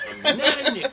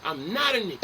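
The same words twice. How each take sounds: First: Higher and louder, laughing through it; hammed-up indignant repeat with a laugh; laughing mock protest. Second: Said in the usual way. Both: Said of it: "Don't ever call".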